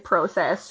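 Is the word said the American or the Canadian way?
Canadian. It is said with a Canadian pronunciation. "we say process"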